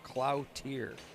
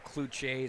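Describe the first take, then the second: First: The name is said with an American pronunciation. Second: The name is said with a French pronunciation. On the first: "we'll give it the Minnesota pronunciation of Cloutier" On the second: "I want to go Cloutier so bad. I took French class for that"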